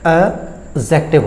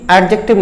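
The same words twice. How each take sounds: First: The d sound is left silent. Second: The d sound is clearly pronounced. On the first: The speaker calls it right. "ये जो डी वाला word है ये आपका silent होता है" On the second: The speaker calls it wrong. "ये एडजेक्टिव नहीं होता है"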